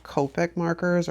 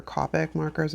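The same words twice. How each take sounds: First: "Copic" with a long o, KOH-pick; long-o pronunciation. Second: "Copic" with a short o, KAH-pick; short-o pronunciation. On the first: Vlogger unsure of the brand name, "Copic" said as KOH-pick. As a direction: say "Copic" so it starts like "cope". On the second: Vlogger offering the other option, "Copic" said as KAH-pick. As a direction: say "Copic" so it starts like "cop". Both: Shown as a demonstration. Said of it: "not sure exactly how it's pr-, like, pronounced".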